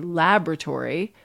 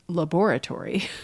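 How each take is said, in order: First: The word is said with one syllable fewer, stressed at the start. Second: The word is said with every syllable, stressed on the second. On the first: "in American English, we don't pronounce it. We say laboratory" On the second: "British English pronounces that syllable"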